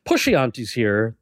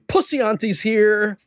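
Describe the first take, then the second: First: The first word has an sh sound in the middle. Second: The first word has an s sound in the middle. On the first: "instead of saying" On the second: "they would say"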